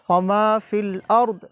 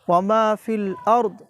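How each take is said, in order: The two takes are said the same way.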